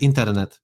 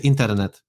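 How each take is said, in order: First: It is said with a Slovak R. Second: The same.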